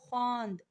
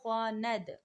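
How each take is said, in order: First: The word ends in a consonant cluster nd. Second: A short a vowel comes before the final d. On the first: It is past tense. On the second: It is present tense.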